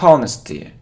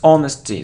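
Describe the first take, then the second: First: The word begins with an audible H sound. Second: The word begins with no H sound. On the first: The speaker calls it wrong. "It isn't honesty" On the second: The speaker calls it right. "so we don't pronounce H here"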